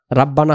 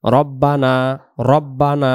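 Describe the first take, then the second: First: রাব্বানা with open a in the first syllable; wrong pronunciation. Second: রব্বানা with rounded o in the first syllable; correct pronunciation. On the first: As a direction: say রাব্বানা the mistaken way. (ভুল উচ্চারণ রাব্বানা) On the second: (সঠিক উচ্চারণ রব্বানা) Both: Shown as a demonstration. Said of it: "রাব্বানা হবে না".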